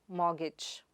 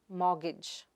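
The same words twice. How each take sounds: The two takes are said the same way.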